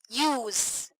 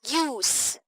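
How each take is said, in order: First: The word ends with a buzzing Z sound. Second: The word ends with a hissing S sound. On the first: The word is used as a verb. "If they are used as verbs, so they have Z sound at the end" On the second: The word is used as a noun. "if they are used as noun, they have S sound at the end"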